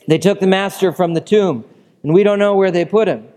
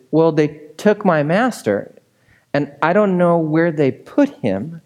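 First: Breathless panting. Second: Said in the usual way. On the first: A narrator's reading. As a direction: blurt it out after running. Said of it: "Breathlessly panting". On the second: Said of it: "she explains".

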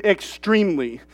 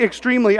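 First: "extremely" leaned on in a lower, softer voice; emphatic stress. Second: Said in the usual way. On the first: Shown as a demonstration. Preacher insisting how severe it was, "extremely" stressed low. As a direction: drop down and press on "extremely". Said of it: "I mean extremely". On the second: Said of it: "when I say extremely".

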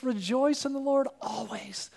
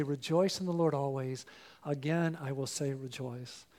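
First: A morning whisper to start the day; whispered verse. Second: Soft, hushed morning declaration; quiet self-preaching. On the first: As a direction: whisper it, no voice at all. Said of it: "let's start our day with Jesus". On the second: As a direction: say it softly to yourself at dawn. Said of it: "Will you get up and say". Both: Shown as a demonstration.

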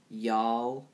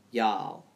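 First: Said in the usual way. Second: Y'all with a light Southern twang, drawn-out vowel. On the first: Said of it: "If I do it without a twang". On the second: Shown as a demonstration. Podcaster tries y'all with a Southern twang for listeners. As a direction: say "Y'all." the Southern way, a mild drawl. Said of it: "do I have to do it with the twang".

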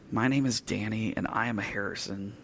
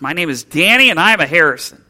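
First: Quiet, limp mumble with no courage; no conviction. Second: Loud, fast and proud, almost a shout; nearly shouted. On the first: Timid boy asked by his father to say his name, quiet and unconvinced. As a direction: say it softly as a timid boy who doesn't believe it. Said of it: "he said it with no conviction, no courage, definitely not much volume". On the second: Boy repeats his name for his father, nearly shouting it. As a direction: belt it out like a boy suddenly sure of himself. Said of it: "the boy nearly shouted the words". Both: Retold or imitated.

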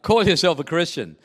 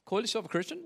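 First: Flat falling statement on "Call yourself a Christian.". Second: Rising question tune on "Call yourself a Christian?". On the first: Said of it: "It's not a statement". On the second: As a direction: ask "Call yourself a Christian?" with a rise at the end. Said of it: "but a question mark at the end". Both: Shown as a demonstration.

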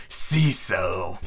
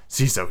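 First: Drawn-out, low steely villain voice; full pirate captain voice, stretching the name; Hook. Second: Understated steely address; a touch of cold command. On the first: Shown as a demonstration. Hook addressing his pirate, in full steely character. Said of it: "in the proper Hook voice". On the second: A narrator's reading. Hook addressing his pirate, mildly steely. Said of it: "in his most steely voice".

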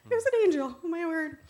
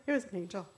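First: High, loud burst of amazement; astonished outburst. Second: Said in the usual way. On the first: Acted. Woman in the car realizing she met an angel, high loud amazement. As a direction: exclaim it as the realization hits.

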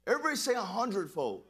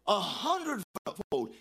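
First: Said in the usual way. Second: "A hundredfold" drawn out slowly; slow emphatic echo. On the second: Shown as a demonstration. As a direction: lean on every syllable of "hundredfold".

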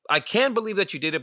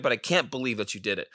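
First: Can raised and quick, retelling a friend's disbelief; I can believe said higher and fast; stress on can. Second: Can't leaned on, softer and fast; stress on can't. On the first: Friend marvels at Jose's work, stressing can. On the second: Friend marvels at Jose's work, stressing can't. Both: Retold or imitated. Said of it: "He was completely shocked and surprised".

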